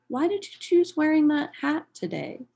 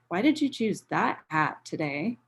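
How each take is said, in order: First: It sounds genuinely curious and interested. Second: It sounds judgmental and critical.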